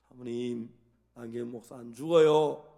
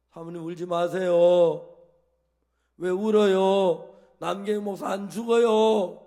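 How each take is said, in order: First: A hint of Jesus' firm assurance, louder; imitating Jesus. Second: Loud, slow, firm comfort like Jesus; imitating Jesus. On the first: Pastor to the weeping wife, loud firm assurance. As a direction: assure her firmly as His servant. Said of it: "예수님의 종이니까". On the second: Pastor to the weeping wife on the phone, slow and loudly firm. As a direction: speak with Jesus' calm authority over a grieving wife. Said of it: "예수님 흉내를 냈어요".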